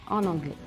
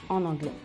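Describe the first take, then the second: The two takes are said the same way.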